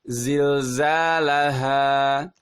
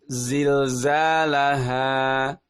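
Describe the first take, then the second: No difference in how they are said.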